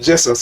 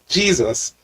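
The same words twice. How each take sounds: First: The first vowel is a short E sound. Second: The first vowel is a long E sound. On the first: The speaker calls it right. "you should say Jesus according to the rules of English" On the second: The speaker calls it wrong. "You shouldn't say Jesus"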